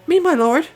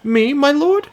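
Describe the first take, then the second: First: It is said in a higher, Irish-tinged voice. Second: It is said in a lower, non-Irish voice.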